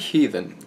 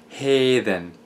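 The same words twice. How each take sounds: First: The word is said in modern English pronunciation. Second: The word is said with an eh vowel. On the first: "The word heathen" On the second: "comes from Old English heathen"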